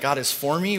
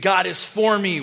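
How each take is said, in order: First: It is said as a doubtful, rising question. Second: It is said as a confident exclamation.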